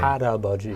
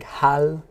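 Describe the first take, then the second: First: The syllables flow together with an R-like sound. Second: The syllables are read separately with an L sound. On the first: "when we say it, it sounds more like an R sound" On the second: "syllable by syllable, it looks like hal, 아버지"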